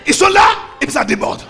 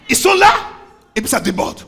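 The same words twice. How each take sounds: First: Shouted fast, all in one push; preacher hammering the phrase home. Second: Said in the usual way. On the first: Shown as a demonstration. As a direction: fire the whole line out quickly.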